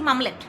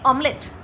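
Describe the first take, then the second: First: The word begins with an m sound. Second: The word begins with a vowel sound. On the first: This is the form heard in childhood. "ওই ছোটোবেলার থেকে শুনেছি মামলেট" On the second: This is the form heard nowadays. "এখন শুনি অমলেট। মটা অ হয়ে গেছে"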